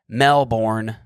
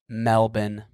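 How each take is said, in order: First: The word is pronounced the way it is spelled. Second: The word is pronounced differently from its spelling. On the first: The speaker calls it wrong. "That's how it looks like you'd say it. It's it's how it's spelt" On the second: The speaker calls it right. "But no, it's Melbourne"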